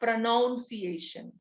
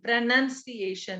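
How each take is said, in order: First: The second syllable sounds like 'noun'. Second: The second syllable sounds like 'nun'. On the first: The speaker calls it wrong. "It's not pronunciation" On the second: The speaker calls it right. "it is N U N"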